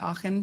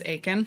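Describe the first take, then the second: First: The name is said with a German-style pronunciation. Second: The name is said with an English-style pronunciation. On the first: "She really insisted that I go by Aachen" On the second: "I was pronouncing my name as Aiken"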